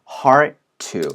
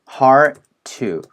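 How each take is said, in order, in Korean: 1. D 소리가 T 소리에 합쳐져요. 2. D 소리가 T 소리에 합쳐져요.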